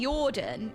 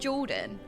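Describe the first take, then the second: First: The name begins with a Y sound. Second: The name begins with a J sound. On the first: It is the Swedish way of saying it. "she calls me Jordan instead of Jordan. sometimes they pronounce the J's as Y's" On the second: It is the usual English way of saying it. "instead of Jordan"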